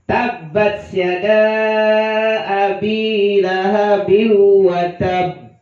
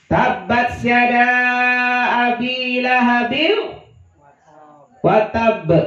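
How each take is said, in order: First: The phrase flows and ends on a doubled b. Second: The phrase breaks and ends on a single b. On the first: The speaker calls it right. "yang benar. ... karena di akhirnya ada tasydid" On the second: The speaker calls it wrong.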